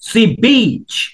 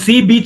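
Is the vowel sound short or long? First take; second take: long; short. First: The vowel is said long. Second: The vowel is said short. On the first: The speaker calls it right. "তখন উচ্চারণটা একটু long হয়" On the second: The speaker calls it wrong. "না"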